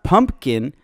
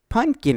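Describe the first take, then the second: First: It is said with the m sound, pumpkin. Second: It is said without the m sound, punkin. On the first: The speaker calls it wrong. "It's not pumpkin" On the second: The speaker calls it right. "it's Pumpkin with P U N K I N"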